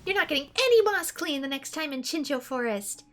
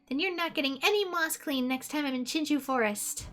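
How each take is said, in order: First: It is said with more gusto and energy. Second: It is said with little energy.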